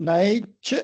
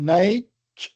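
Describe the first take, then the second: Both takes have the same delivery.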